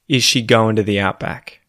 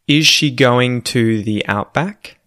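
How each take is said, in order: First: Words are said fast and run together. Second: Every word is said slowly and clearly. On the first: "read it quickly in, you know, colloquial Australian English" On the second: "proper, well-enunciated, well-pronounced English"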